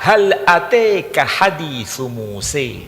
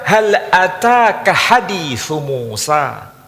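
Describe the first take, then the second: First: The last word ends with an 'eh' vowel. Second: The last word ends with an 'ah' vowel. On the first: "boleh juga dibaca dengan nama Muse" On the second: "boleh dibaca dengan nama Musa"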